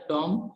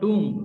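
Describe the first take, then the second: First: The vowel sounds like a short 'o'. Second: The vowel sounds like a long 'oo'. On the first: The speaker calls it wrong. "मिस pronounce किया जाता है" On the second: The speaker calls it right. "Correct pronunciation"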